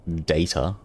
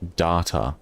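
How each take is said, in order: First: The word is said with a non-Australian accent. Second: The word is said with an Australian accent. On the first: The speaker calls it wrong. "Not data" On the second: The speaker calls it right. "you don't speak with an Australian accent"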